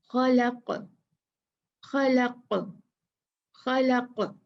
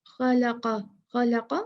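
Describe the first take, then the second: First: खलक़ stopped on a bounced, echoing qaf; qalqalah stop. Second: खलक़ा read straight on with the vowel, no bounce on the qaf; no qalqalah. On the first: Teacher showing students the stop on खलक़. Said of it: "कलकला करके रुकूंगी". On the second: Teacher showing students खलक़ा read through. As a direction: keep खलक़ा smooth without an echo. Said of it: "कोई कलकला नहीं होगा". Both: Shown as a demonstration.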